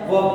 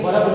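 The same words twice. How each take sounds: First: वर्ब said as vuhb with a silent r; correct pronunciation. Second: वर्ब said wrongly with a sounded r; wrong pronunciation. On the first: Teacher giving the right form, silent r in वर्ब. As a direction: say वर्ब with no r at all. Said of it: "क्या होता है?". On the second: Teacher showing the wrong way, r sounded in वर्ब. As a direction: read वर्ब as verrb, r clearly heard. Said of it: "ये वर्ब नहीं होता". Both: Shown as a demonstration.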